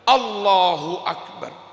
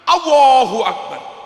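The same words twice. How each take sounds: First: The L is thick but clearly heard. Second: The L is over-thickened and disappears. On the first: The speaker calls it right. "Sing bener" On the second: The speaker calls it wrong. "Sebagian kenemenen tafkhime lame ilang"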